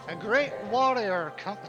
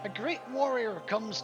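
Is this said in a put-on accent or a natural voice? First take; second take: put-on accent; natural voice. First: It is said in a forced, put-on accent. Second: It is said in the speaker's natural accent.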